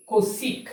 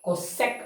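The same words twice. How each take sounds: First: "cosec" said as ko-sek, two short syllables; "cosec" spoken as ko-sek, lifted at the end; pronounce cosec. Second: Said in the usual way. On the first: Shown as a demonstration. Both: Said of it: "You may pronounce it cosec".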